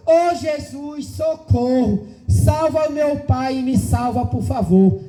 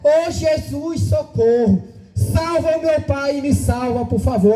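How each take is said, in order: First: Slow, drawn-out little girl's plea, lightly voiced; a hint of a small child praying for help; child's plea. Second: Slow, drawn-out little girl's cry, lightly voiced; a touch of a three-year-old begging Jesus; child's plea. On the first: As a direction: stretch out the first words like a frightened child begging. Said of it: "eu ouvi uma voz de uma criança dizendo". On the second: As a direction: linger on the opening call like a hurt toddler. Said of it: "Aquela criança de três anos de idade dizia".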